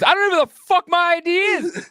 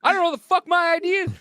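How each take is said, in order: First: High-pitched mock rant, voice pitched way up; squeaky exasperated yelling; angry traveler. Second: High, fast mock rant; quick squeaky outburst; angry traveler faster. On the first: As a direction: rant like a furious passenger who's had enough. Angry man retold. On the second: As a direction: rattle it off furious. Repeated faster.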